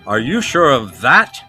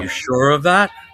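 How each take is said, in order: First: The word 'that' carries the emphasis. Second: The word 'that' carries no emphasis.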